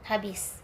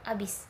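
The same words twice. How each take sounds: First: The word is said with its initial h sound. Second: The word is said without its initial h sound. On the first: This is the standard form. "contoh kata baku adalah habis" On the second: This is the non-standard form. "bahasa tidak bakunya bisa di, dikatakan dengan habis"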